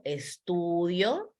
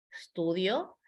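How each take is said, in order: First: Estudio stretched out slowly with a rising end; slow, drawn-out estudio. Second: Said in the usual way. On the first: Shown as a demonstration. Teacher shows the conjugated verb to students, drawn out slowly. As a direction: spell out estudio slowly, syllable by syllable. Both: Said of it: "verbo conjugado".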